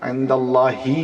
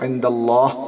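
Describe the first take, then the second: First: The word ends with an added short i vowel. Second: The word ends on a bare h sound. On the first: "না বলে" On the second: "এটা আমি সাকিন করছি"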